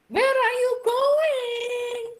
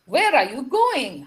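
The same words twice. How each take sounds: First: The voice does not fall at the end. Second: The voice falls at the end. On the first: The speaker calls it wrong. "Iku Indonesia apa Inggris?" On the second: The speaker calls it right. "Turun semuanya"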